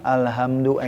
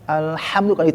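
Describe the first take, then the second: First: The middle of the word is said plainly, without emphasis. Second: The middle of the word is emphasized and raised. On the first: The speaker calls it wrong. "Bukan di mana alhamdulillah itu biasa aja" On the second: The speaker calls it right. "ada penekanan, diangkat gitu kan. Alhamdulillah di tengah"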